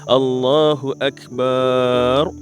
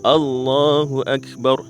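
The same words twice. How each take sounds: First: The vowel after the b is drawn out. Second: The vowel after the b is short. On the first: The speaker calls it wrong. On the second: The speaker calls it right. "Jangan panjang ataupun jangan mat"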